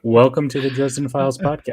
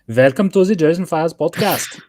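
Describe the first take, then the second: First: It is said in a normal voice. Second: It is said in a weird foreign accent.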